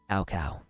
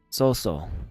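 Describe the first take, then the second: First: The name is said with a 'k' sound, like 'cow cow'. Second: The name is said with an 's' sound, like 'so so'. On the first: This is how the speaker used to say the name. The speaker calls it wrong. "I had always called him Cow Cow" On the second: This is how the name is actually pronounced. The speaker calls it right. "I did not realize that that was how his name was pronounced"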